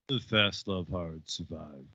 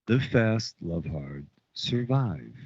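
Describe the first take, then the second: First: The words are mumbled and run together. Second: Each word is clearly and separately enunciated. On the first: The speaker calls it wrong. "he fucking mumbles" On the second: The speaker calls it right. "Was that enunciating enough?"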